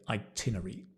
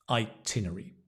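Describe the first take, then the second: The two takes are said the same way.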